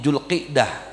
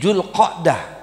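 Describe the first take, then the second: First: The vowel after the q is i. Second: The vowel after the q is a. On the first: This is a less common but allowed form. "bikasroh qaf" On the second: This is the widely used form. "memfathahkan huruf qafnya"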